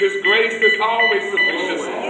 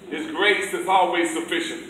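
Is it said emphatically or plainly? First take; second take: emphatically; plainly. First: It is said with strong, forceful emphasis. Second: It is said plainly, without extra emphasis.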